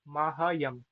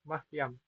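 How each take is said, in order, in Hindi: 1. 'h' ध्वनि के बाद पूरा स्वर आता है। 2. 'y' से पहले 'h' ध्वनि छोटी कर दी जाती है। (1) "अगर ये पूरा होता तो आप क्या बोलते?" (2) "हल्का सा, बस आपने हकार के लिए मुख खोलना है"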